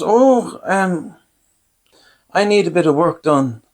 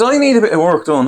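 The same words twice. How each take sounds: First: Higher-pitched, hesitant quote of the dentist; angling dentist. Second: Higher mimicked dentist request; re-quote her in a raised pitch; repeated dentist quote. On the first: Retold or imitated. Dentist sounding out her electrician patient, higher retold voice. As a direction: pitch it up, feeling out a favour. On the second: Patient recounting the dentist's request, higher mimicking voice.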